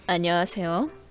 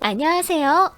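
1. 목소리는 저음이에요. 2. 목소리는 중음이에요. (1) "저음으로 얘기하고" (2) "중음으로 얘기하고"

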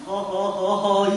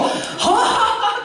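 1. 웃음소리가 작고 조용해요. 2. 웃음소리가 크고 우렁차요. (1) "그냥 허허허허 이 교수님 그렇게 웃지 마시고" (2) "크게 웃으셔야 돼요"

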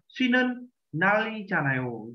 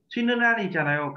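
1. Các từ được nói riêng rẽ, có khoảng ngừng giữa chúng. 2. Các từ được nối liền với nhau, không có khoảng ngừng nào. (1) "chứ không đọc là" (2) "cả cụm này đọc cùng với nhau"

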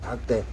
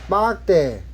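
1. 이 단어는 예사소리, 힘을 뺀 자음으로 시작합니다. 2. 이 단어는 된소리, 긴장된 자음으로 시작합니다. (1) "박대라지 박대" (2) "빡대가 아니고"

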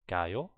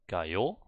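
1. Die Betonung liegt auf der ersten Silbe. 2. Die Betonung liegt auf der zweiten Silbe. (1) "the focus is on this second last syllable all the time" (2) "Not gayo"

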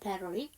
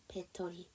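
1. 미국식 플랩 발음이 강하게 나요. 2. 평범한 한국식 음절로 발음해요.

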